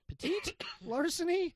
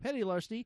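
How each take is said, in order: First: The first word sounds like 'petite', stressed at the end. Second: The first word sounds like 'petty', stressed at the start. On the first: "I read it petite also" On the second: "petty, okay, petty larceny"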